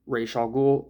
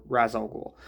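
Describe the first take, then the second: First: Ra's pronounced "raysh", ending in sh; long ay in Ra's, then a sh sound; RAYSH pronunciation. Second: Ra's pronounced "raz", ending in z; short flat a in Ra's, as in "jazz"; RAZ pronunciation. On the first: Reviewer giving his chosen name for the master, Ra's said "raysh". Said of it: "I'm just gonna say Raish". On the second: Reviewer giving the alternative name for the master, Ra's said "raz". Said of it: "the Arabic way is Ra's al Ghul". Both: Shown as a demonstration.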